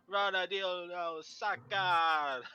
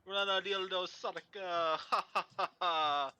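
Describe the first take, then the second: First: Slow, louder "Rana dildo Saka" with rolled R attempted; half-failed imitation of a rolled-R game announcer; mock rolled R's. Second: Raised, louder mock chant broken by a laugh; playful retold laugh and chant; imitated laughing announcer. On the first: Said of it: "he rolls his R's". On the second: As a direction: ham up a laughing guy on a choppy mic. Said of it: "I heard you specifically laughing at Luke".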